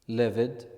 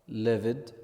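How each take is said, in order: Both takes have the same delivery.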